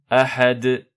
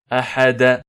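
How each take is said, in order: First: It ends on the final consonant with a bounce. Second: It ends with an added short a vowel. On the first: The speaker calls it right. "on applique la grande résonance al-qalqala al-kubra" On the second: The speaker calls it wrong. "On dit pas ahada"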